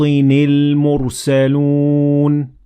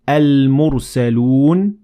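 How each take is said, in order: First: The word starts straight on the 'l' sound. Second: The word starts with a vowel before 'l'. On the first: The reader continued from the previous word. "I connected the last letter of these words to lam directly" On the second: The reader started reading at this word. "if I start at these words, I will normally pronounce Hamzat Wasl"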